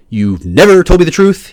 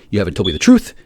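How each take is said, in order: First: Never hit hard, louder and slower; stress on never. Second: Said in the usual way. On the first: Real, not acted. Accusing the people who lied to him, never stressed. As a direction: lean on never, drag the line out. Repeats the line with more force.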